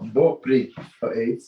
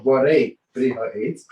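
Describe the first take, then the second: First: The first two words are slurred into one. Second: Each word is said clearly and separately. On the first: The speaker calls it wrong. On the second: The speaker calls it right.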